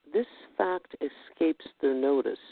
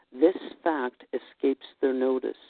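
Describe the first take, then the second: Both takes have the same delivery.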